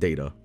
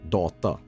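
First: The word is said in an English way. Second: The word is said in a Swedish way. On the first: The speaker calls it right. "I pronounce it data" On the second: The speaker calls it wrong. "that would be the Swedish way"

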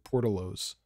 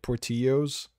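First: The double L is said like an L sound. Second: The double L is said like a Y sound.

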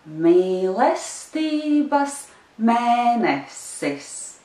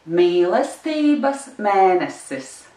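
First: It is said slowly. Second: It is said very fast.

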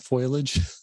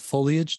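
First: The word begins with a foil sound, foil-age. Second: The word begins with three syllables, foe-lee-age. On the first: The speaker calls it wrong. "not foliage" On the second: The speaker calls it right.

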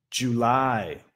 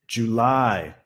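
No difference in how they are said.

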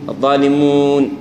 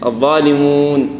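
The two takes are said the same way.

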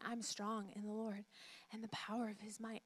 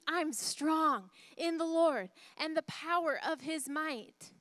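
First: It is said at normal loudness. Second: It is yelled loudly.

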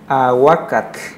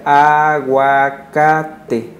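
First: The word ends with a 'tl' consonant sound. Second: The word ends with an open 'e' vowel. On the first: This is the original Nahuatl form. "en náhuatl se pronuncia aguacat, termina con TL" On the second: This is the form adapted into Spanish. "ya se adaptó al español y se pronuncia aguacate"

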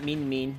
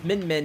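First: The vowel is long, as in 'bean'. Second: The vowel is short, as in 'bin'. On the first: The speaker calls it wrong. "not Mean Mean" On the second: The speaker calls it right. "it's Min Min"

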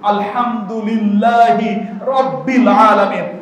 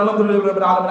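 First: It is recited slowly, every letter clear. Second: It is recited very fast and aggressively.

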